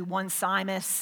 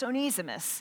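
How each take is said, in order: First: The name begins like the word 'one'. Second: The name begins with an 'oh' sound. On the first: The speaker calls it wrong. "Some people say one Simus, it kind of looks that way" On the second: The speaker calls it right. "but it's Onesimus"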